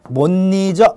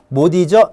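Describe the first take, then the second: First: An extra n sound is inserted between the words. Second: The final consonant links straight into the next word. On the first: "니은 첨가를 하게 되면 바로 못 잊어" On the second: "연음을 하면 어떻게 된다? 못 잊어 해서 이런 식으로 됩니다"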